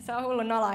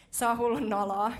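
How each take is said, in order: First: Louder, laughing-through "se on hullun noloa"; mock embarrassed protest. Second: Mock embarrassed protest. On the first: Preacher retells resisting God's call, embarrassed and louder. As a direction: protest like a sheepish youth. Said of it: "Mä olin silleen, ei". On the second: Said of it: "mä oon vaan silleen".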